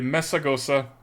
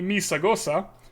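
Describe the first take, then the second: First: The name is said with its standard pronunciation. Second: The name is said like a Star Wars name. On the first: "I'm gonna try and pronounce this correctly" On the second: "or if you're a Star Wars fan like me"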